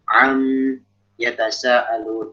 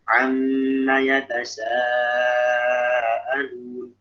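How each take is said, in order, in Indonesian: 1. Kata ini dipotong menjadi 'am' sebelum kata berikutnya. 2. Huruf m digandakan dan diberi vokal yang menyambung ke kata berikutnya. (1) "kita nggak mungkin ya baca begitu" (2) "kalau kita wasol ya harus dihidupkan"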